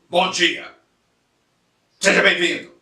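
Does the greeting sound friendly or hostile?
hostile. The greeting is said in a hostile, irritated tone. The welcome does not seem sincere. The speaker calls it wrong. "usando um tom de voz que parece que a gente já começou a brigar"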